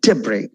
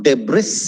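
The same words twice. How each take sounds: First: Debris as "DEB-ree", silent S; correct pronunciation. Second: Debris with the final S sounded, "debriss"; wrong pronunciation. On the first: Teacher modelling Debris for learners, correct pronunciation. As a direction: stress the opening "deb" of Debris, no S. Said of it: "You say debris". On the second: Teacher showing learners the mistake in debris, mispronounced. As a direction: say debris ending in a hissed S. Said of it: "It's not debris". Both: Shown as a demonstration.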